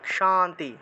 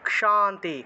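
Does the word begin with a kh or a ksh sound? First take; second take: ksh; ksh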